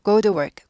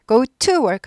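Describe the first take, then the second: First: The word to is weakened and reduced. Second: Every word, including to, is pronounced fully. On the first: The speaker calls it right. "약화돼요, 발음이" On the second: The speaker calls it wrong. "하지 않고"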